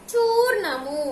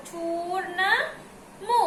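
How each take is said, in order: First: Said in the usual way. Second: చూర్ణము drawn out in separate parts; syllable by syllable. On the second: Shown as a demonstration. Teacher spelling out a word for pupils, చూర్ణము said in slow parts. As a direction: slowly sound out చూర్ణము before joining it. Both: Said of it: "ఇప్పుడు ఎలా చదవాలి".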